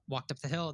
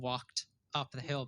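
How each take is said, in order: First: The words run together smoothly. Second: The words are kept separate. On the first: The speaker calls it right. "it's all linking together" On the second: The speaker calls it wrong. "they weren't saying"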